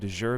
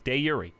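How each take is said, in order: First: It uses the familiar anglicized pronunciation. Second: It uses the original Latin pronunciation. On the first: The speaker calls it wrong. "I had been saying de jure this entire time" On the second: The speaker calls it right. "We found the original Latin pronunciation. It's de jure"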